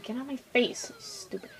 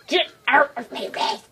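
First: Soft grumble fading to a whisper; quiet, trailing-off irritation; muttered annoyance. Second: Rough, sudden yell at the enemy; exasperated game rage; irritated outburst. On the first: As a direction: grumble it under your breath at the enemy. Muttering at a game enemy. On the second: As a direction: burst out at whatever is in your way. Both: Real, not acted.

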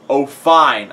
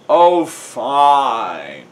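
First: Loud, grudging agreement; giving in. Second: Loud, drawn-out groan; hammed-up grudging groan; Riley. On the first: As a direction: concede it with a push. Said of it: "I said". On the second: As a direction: give in with a long, reluctant moan. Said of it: "Riley groans". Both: A narrator's reading.

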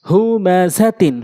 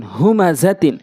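First: Syllables stretched for learners; slow demo. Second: Syllables joined into one word; quick reading. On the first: Teacher speaking so learners can follow, slowly. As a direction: take the word slowly, part by part. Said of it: "slow বলছি এই জন্য". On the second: Teacher showing how it must be read, quickly. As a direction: read it briskly, vowels short. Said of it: "দ্রুতটা উচ্চারণ করতে হবে". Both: Shown as a demonstration.

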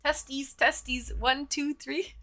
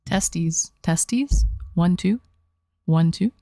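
First: Said in the usual way. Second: Booming low mic check; loud mic check. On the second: Shown as a demonstration. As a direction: belt it into the mic. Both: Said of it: "My favorite mic check".

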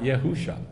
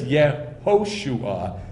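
First: "Yehusha" with long oo, no "ho"; wrong hoo vowel. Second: "Yehoshua" in clear syllables with an oh; correct ho vowel. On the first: Teacher rejecting the wrong form, "Yehusha" with hoo. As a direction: say "Yehusha" as yeh-HOO-shah. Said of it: "not Yehusha". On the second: Teacher correcting the name, clearly separated "Yehoshua" with oh. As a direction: say "Yehoshua" as yeh-HO-shoo-ah. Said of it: "it is Yehoshua, not Yehusha". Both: Shown as a demonstration.

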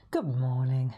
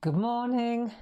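First: Said in the usual way. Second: A croaky first greeting; morning voice, a bit croaky; croaky good morning. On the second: Real, not acted. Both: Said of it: "that sounded a bit croaky".

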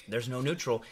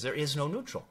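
First: "neutral" falling firmly at the end; "There's no neutral" with the pitch dropping on "neutral"; falling tune. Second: "neutral" rising at the end like a question; "There is no neutral" with the pitch going up on "neutral"; rising tune. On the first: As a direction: settle "neutral" down as a flat statement. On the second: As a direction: lift "neutral" up as if asking. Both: Shown as a demonstration.

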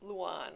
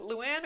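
First: Luan rhyming with "swan"; Luan as Lu-AHN. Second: Luan rhyming with "can"; Luan as Lu-ANN. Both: Shown as a demonstration. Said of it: "is it Luan or Luan".

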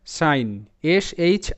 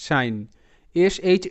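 No difference in how they are said.

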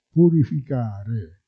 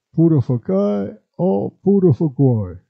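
First: Said in the usual way. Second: "Purificare" said as purofokee, with the i sounds turned to o; "purificare" in dialect: pu-ro-fo-ke, final re dropped; "Purificare o purificare", purofokee then purofokoe; dialect pronunciation. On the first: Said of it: "si può trasformare in W". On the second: Shown as a demonstration. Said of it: "quando la U non è bene scandita".

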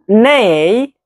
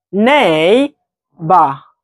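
First: Neighbor said slowly, syllable by syllable, rising at the end; model pronunciation. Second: Neighbor drawn out long and slow, falling at the end; model pronunciation. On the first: Teacher shows her class how to say it, rising. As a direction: spell out Neighbor with a lifted finish. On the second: Teacher repeats the word for her students, slow and falling. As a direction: stretch out Neighbor and let it fall. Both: Shown as a demonstration. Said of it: "ici, tu vois?".

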